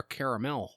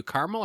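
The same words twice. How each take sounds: First: "caramel" said as CARE-uh-mel; three-syllable caramel. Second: "caramel" said as CAR-mul; two-syllable caramel. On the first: Host offers the other way, "caramel" as CARE-uh-mel. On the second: Host asks which way you say it, "caramel" as CAR-mul. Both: Shown as a demonstration. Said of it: "are you a caramel or caramel".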